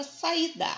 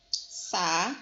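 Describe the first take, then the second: First: Said in the usual way. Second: "Sa-i-da" split into three separate syllables; separado em sílabas. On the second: Shown as a demonstration. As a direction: say "Sa-i-da" syllable by syllable, pausing around the lone "i". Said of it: "Se eu for separar a sílaba". ("Sa-i-da" dito sílaba por sílaba, com pausas)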